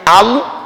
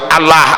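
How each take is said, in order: First: The vowel after the L sounds like a heavy o. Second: The vowel after the L sounds like a thin a. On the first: The speaker has studied Quran recitation. The speaker calls it right. "sing tahu ngaji Allah" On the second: The speaker has not studied Quran recitation. The speaker calls it wrong. "sing gak tahu ngaji ya Allah ngono"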